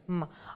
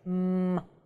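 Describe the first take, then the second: First: The M is short and less intense. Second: The M is tense and drawn out. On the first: "У нас русская менее интенсивная. М. Мы просто говорим М" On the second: "плотно смыкаются губки, и мы ее чуть-чуть тянем"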